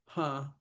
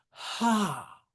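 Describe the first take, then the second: First: Said in the usual way. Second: Ha hit hard, high and loud; stress on Ha. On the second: Shown as a demonstration. Teacher showing a trochee in verse, stress on Ha. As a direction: punch Ha as a strong beat. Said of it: "So we hit ha".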